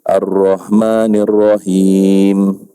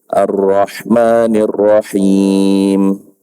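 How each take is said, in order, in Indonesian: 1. H dalam Rahman itu h yang lembut, biasa. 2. H dalam Rahman itu h yang kasar, dari tenggorokan. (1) "itu salah" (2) "Yang betul"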